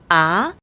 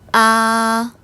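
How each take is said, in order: First: The pitch rises quickly from low to high. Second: The pitch stays high, long and level. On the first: "낮은 음에서 높은 음으로 단숨에 확 끌어당기듯" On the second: "높고 길고 평평하게"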